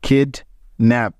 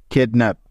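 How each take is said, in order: First: kidnap, slowly, with a clear pause between কিড and nap; split into syllables. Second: Said in the usual way. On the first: Shown as a demonstration. Teacher sounding out a word for learners, syllable by syllable. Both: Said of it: "একবার থামতে হচ্ছে".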